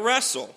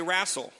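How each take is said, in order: First: Said in the usual way. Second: "wrestle" said as "rassle", with an open a; Mom's pronunciation. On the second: Retold or imitated. Pastor imitating Mom's "wrestle" as "rassle". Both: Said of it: "or as Mom would say".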